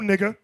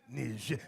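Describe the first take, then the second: First: The name is given a plain English pronunciation. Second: The name is given a French-style pronunciation. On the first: The speaker calls it right. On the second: The speaker calls it wrong. "Say it French. Franco. Français"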